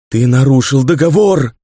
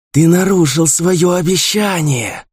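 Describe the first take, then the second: First: Loud, raging cry, hitting договор; furious ghostly shout. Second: High, slow hiss stressing нарушил; hissed through bared teeth. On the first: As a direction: hurl it out in fury. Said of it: "выкрикнула она с яростью". (яростный крик призрака) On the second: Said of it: "прошипела она сквозь оскаленные белые зубы". (шипение сквозь оскаленные зубы) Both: A narrator's reading.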